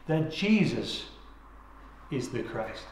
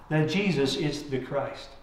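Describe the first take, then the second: First: Slow "That Jesus", long pause, then "is the Christ" dropped low and soft; stress on Jesus. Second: Said in the usual way. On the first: Shown as a demonstration. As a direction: lean on "Jesus", hold a pause before "is the Christ". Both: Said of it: "putting emphasis on the different words".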